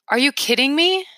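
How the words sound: It sounds like a reaction to good news.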